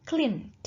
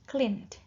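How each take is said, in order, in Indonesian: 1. N langsung bertemu dengan D di akhir. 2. N langsung bertemu dengan D di akhir.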